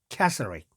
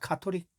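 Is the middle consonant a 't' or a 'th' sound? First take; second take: th; t. First: The middle consonant is a 'th' sound. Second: The middle consonant is a plain 't'. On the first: The speaker calls it right. "캐서릭 해야 그 사람들이 카톨릭을 생각하는 겁니다" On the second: The speaker calls it wrong. "카톨릭이 아니죠"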